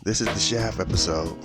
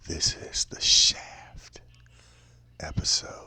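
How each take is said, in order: First: It is said in a normal voice. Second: It is said in a whispery voice.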